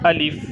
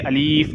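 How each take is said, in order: First: The second vowel is said short and quick. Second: The second vowel is drawn out long. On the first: The speaker calls it right. "इसे जल्दी अदा करना है।" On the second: The speaker calls it wrong. "बहुत से लोग इसे अलीफ पढ़ते हैं जो गलत"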